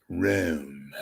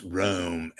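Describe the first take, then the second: First: "Rome" said with an affected, altered vowel; affected pronunciation. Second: Said in the usual way. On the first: Retold or imitated. Host mimics correspondent's name for the city, affected "Rome". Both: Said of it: "She used to pronounce Rome as Rome".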